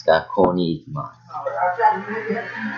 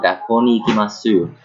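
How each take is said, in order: First: Gakko ni ikimasu slow, with long o and no final u; long O, silent U. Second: Gakko ni ikimasu with short o and a sounded final u; wrong vowel lengths. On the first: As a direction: stretch gakko, end ikimasu on s. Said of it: "your long u". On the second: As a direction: end ikimasu on a full su, gakko kept short. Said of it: "not gakko ni ikimasu". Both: Shown as a demonstration.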